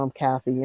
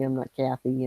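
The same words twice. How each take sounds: First: "Kathy" with a nasal Michigan vowel; Michigan accent. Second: Said in the usual way. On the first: Shown as a demonstration. Showing the name in home-state speech, Michigan accent. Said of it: "nasally, kind of talking Michigan". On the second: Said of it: "I'm not, you know".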